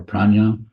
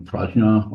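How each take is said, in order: First: Prajna said as "PRAHN-yah"; alternate pronunciation. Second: Prajna said as "PRAHZH-nah"; alternate pronunciation. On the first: Teacher naming the wisdom mind both ways, prajna as "PRAHN-yah". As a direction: say prajna with a "ny" glide in the middle. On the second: Teacher naming the wisdom mind both ways, prajna as "PRAHZH-nah". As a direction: say prajna with a "zh" sound before the n. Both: Shown as a demonstration. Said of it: "however you pronounce it".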